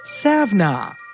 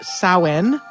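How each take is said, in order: First: The word is said with a v sound inside. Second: The word is said without a v sound. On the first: This is a less common way to say it. "sometimes pronounced" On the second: This is the usual way to say it. "is usually pronounced"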